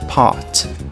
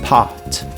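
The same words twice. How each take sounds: The two takes are said the same way.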